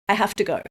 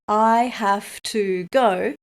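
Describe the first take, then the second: First: 'Have to' is reduced to 'hafta'. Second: 'Have to' is pronounced fully and carefully. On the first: The speaker calls it right. "to becomes ta... soften the v in have so it sounds like f" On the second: The speaker calls it wrong. "Don't say"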